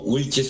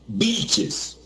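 First: The name begins with a w sound. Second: The name begins with a b sound. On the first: This is how Colombians say the name. "Wilches para los colombianos" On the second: This is how Argentines and Peruvians say the name. "el narrador argentino lo pronunciaba como Vilches"

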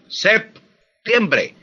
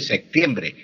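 First: A p sound comes before the t. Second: A k sound comes before the t. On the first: The speaker calls it right. "Para pronunciar la P uno junta los labios" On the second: The speaker calls it wrong. "así como estoy diciendo, como si estuviera pronunciando de secta, una C"

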